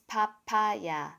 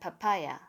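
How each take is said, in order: First: All syllables are even, with no stress. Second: One syllable is stressed, as in English. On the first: The speaker calls it right. "there is no stressed syllable in a Korean word" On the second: The speaker calls it wrong.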